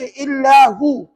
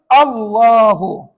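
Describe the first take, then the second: First: The word begins with an 'i' vowel. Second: The word begins with an 'a' vowel. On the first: The speaker calls it wrong. "jangan baca illahu" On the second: The speaker calls it right. "Kena baca Allahu"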